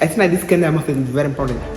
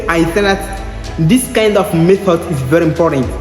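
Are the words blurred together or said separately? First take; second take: blurred together; said separately. First: The words are blurred and linked together. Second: Each word is said clearly and separately. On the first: "Quand un Américain dit, essaie d'agommer ce qu'il dit" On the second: "il veut dire que"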